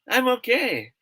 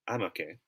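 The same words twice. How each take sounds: First: It sounds cheerful and sincere. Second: It sounds low and unconvincing. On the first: The person really is fine. "That's a sign that what he or she is saying is true" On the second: The person is not really fine. "if he or she say it like this, I'm okay. See, it means something else"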